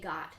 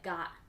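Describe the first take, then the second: First: The final T is clearly pronounced. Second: The final T is cut off, not released. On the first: "We don't always say got" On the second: "Sometimes we do a thing like got"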